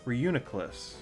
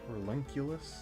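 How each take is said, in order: First: The second syllable sounds like 'oo-nee'. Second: The second syllable sounds like 'len'. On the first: The speaker calls it right. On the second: The speaker calls it wrong.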